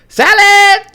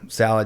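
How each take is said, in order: First: The word is yelled out loudly. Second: The word is said at a normal, quiet volume. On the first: "Like she would yell it" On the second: "or I'd say"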